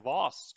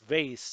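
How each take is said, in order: First: The word is said with a fancy, posh vowel. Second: The word is said with a plain, everyday vowel.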